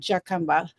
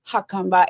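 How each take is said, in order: First: The name begins with a J sound. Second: The name begins with an H sound. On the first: The speaker calls it wrong. "So J is pronounced H, not J. So it's not Jacumba" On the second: The speaker calls it right. "it's Jacumba"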